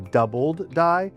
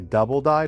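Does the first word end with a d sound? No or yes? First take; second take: yes; no. First: The first word ends with a d sound. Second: The first word ends without a d sound. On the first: The speaker calls it right. "but it's actually doubled die" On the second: The speaker calls it wrong. "A lot of people say double die"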